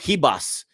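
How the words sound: The name is said with a Brazilian Portuguese accent.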